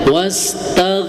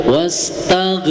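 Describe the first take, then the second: No difference in how they are said.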